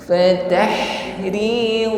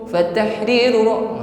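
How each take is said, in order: First: The h sound flows and is drawn out. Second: The h sound is cut short. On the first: The speaker calls it right. "Alirkan dulu bunyi huruf ha" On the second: The speaker calls it wrong. "bukan fatahriru fatahriru. Nah, ini tidak memanjang"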